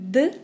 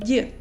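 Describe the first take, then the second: First: The d is hard, tongue held low. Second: The d is soft, tongue raised forward. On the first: "Hard consonants d" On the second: "can become soft"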